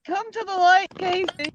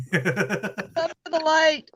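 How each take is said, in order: First: High sing-song invitation; high teasing. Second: Slow invitation through laughter; laughing, slow. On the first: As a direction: coax him, pitched up. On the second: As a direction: laugh it out, drawn out. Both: Pretend. Teasing Casey to join.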